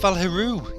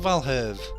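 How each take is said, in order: First: The name ends with an 'oo' vowel. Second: The name ends with a 'v' sound. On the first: The speaker calls it right. "it's Valheru!" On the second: The speaker calls it wrong. "It's not Valherve!"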